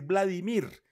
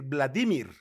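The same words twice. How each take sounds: First: The stress is not on the second-to-last syllable. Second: The stress is on the second-to-last syllable. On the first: The speaker calls it wrong. "a mí aquí me enseñaron a decir Vladimir" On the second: The speaker calls it right. "en español Vladimir es palabra grave, debería decir Vladimir"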